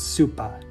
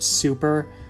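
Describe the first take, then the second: First: The word ends with an uh sound. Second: The word ends with an er sound. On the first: "will end them with an uh sound" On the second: "instead of an er sound"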